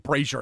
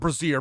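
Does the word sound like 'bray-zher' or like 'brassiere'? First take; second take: bray-zher; brassiere. First: It is said like bray-zher, as in glazier. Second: It is said like brassiere, stress at the end. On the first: It names a fire bowl. The speaker calls it right. "It's probably brazier" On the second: It names a bra. The speaker calls it wrong. "It's not brazier. Brazier is mm, boobs ... That's a bra"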